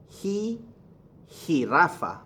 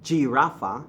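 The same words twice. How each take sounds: First: "jirafa" begun with a breathy H. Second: "jirafa" starting with a J or ZH sound; wrong English J. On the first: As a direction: say "jirafa" as hee-RAH-fa. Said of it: "The H sound". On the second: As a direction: say "jirafa" as jee-RAH-fa. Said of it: "So it's not". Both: Shown as a demonstration.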